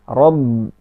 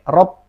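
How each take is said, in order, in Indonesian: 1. Konsonan akhir terdengar seperti b. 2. Konsonan akhir terdengar seperti p. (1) "Padahal ba" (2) "rob seperti mau mengucapkan huruf P"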